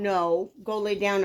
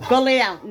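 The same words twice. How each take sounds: First: Said in the usual way. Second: Firm command. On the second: Real, not acted. Ordering dog to bed.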